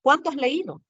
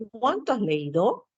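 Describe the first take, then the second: First: "Cuánto" pitched high, then falling through "has leído"; admiring exclamation. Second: "Cuánto has leído" with a rising end; questioning tone. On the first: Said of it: "puedo estar admirándome". ("Cuánto has leído" con admiración, tono alto que cae) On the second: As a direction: ask it, stretching "Cuánto" and lifting "leído". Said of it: "cuando pregunto". ("Cuánto has leído" en tono de pregunta) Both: Shown as a demonstration.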